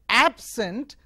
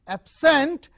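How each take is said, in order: First: The stress is on the first syllable. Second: The stress is on the second syllable. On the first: It is an adjective meaning not present. "if you place the stress on the first syllable, it is called it is pronounced as absent" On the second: It is a verb meaning to stay away. "If you change this stress onto the second syllable"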